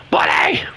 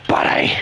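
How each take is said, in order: First: Whispered call. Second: Said in the usual way. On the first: Real, not acted. Calling softly to dog.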